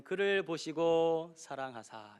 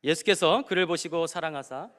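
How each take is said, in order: First: Slow, weighted reading. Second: Loud scripture reading. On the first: Repeats the verse slowly. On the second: Reads the verse aloud. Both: Shown as a demonstration.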